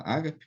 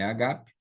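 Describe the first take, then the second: First: Ágape stressed on the first syllable; ágape with strong first a, weak ending; everyday pronunciation. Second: Agape stressed on the middle syllable; agape with strong second a; original pronunciation. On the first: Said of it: "A gente fala ágape". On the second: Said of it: "mas é agape". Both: Shown as a demonstration.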